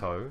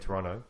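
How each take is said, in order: First: The second T is clearly pronounced. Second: The second T is dropped, Toronto-local style.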